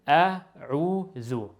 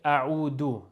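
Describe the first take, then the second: First: The middle consonant is a soft th sound. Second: The middle consonant is a hard d sound. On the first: The speaker calls it right. "Very calm, very softly pronounced" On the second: The speaker calls it wrong. "Most common mistakes is when people say a'udu. That, that's wrong"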